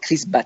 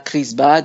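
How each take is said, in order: First: The name ends with a voiceless t sound. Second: The name ends with a voiced d sound. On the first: The speaker calls it right. "alors qu'en fait c'est Chris Bat" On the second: The speaker calls it wrong. "en français on dira Chris Bad"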